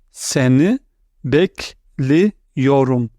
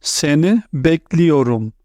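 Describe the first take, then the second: First: "Seni", then "bekliyorum." drawn out very slowly; slow split model pronunciation. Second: Said in the usual way. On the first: Shown as a demonstration. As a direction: stretch "bekliyorum." slowly after a pause.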